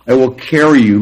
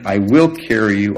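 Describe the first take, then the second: First: "I will carry you" said louder, punching "carry"; emphatic quote. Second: Said in the usual way. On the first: Shown as a demonstration. Preacher underlining the key promise, loud stress on "carry". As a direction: hit "carry" hard and loud. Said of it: "literally means". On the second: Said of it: "verse read, then quoted again".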